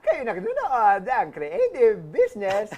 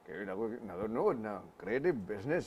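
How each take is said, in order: First: A put-on voice imitating a radio broadcaster. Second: A put-on voice imitating a former president. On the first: "paano kung si Mark Logan yung nag-host nito?" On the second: "paano kung sa Erap yung nag-host"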